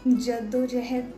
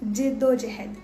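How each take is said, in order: First: The first vowel is an 'a' sound. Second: The first vowel is an 'i' sound. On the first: The speaker calls it wrong. "जद्दोजहद नहीं" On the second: The speaker calls it right. "जिद्दोजहद ना कराया कीजिए"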